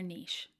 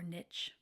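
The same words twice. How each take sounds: First: Niche is said in a non-American way. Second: Niche is said the American way.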